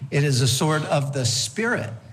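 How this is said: The stress is on the word Spirit.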